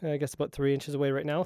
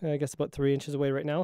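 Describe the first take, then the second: First: The low frequencies below eighty hertz are cut. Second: The low frequencies are left full. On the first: "eighty hertz low cut filter on"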